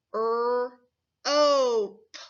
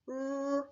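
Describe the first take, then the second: First: "er-ope" split into er and ope, each part clear; sounded out. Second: "Er-ope" much softer, the parts joined closer together; softly blended. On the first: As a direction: segment "er-ope" into er and ope for a child. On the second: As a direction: blend "Er-ope" quietly toward one word. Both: Shown as a demonstration. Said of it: "Watch me".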